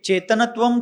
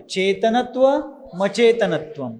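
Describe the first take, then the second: First: चेतनत्वम said as a separate word, the wrong way; चेतनत्वम अलग करके गलत उच्चारण; wrong reading. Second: चेतनत्व मचेतनत्वम with the m joined to the next word; संधि सहित चेतनत्व मचेतनत्वम; correct sandhi reading. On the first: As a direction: read चेतनत्वम on its own without joining it. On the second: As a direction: read चेतनत्व then glide into मचेतनत्वम. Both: Shown as a demonstration. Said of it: "चेतनत्वम नहीं बोलना है".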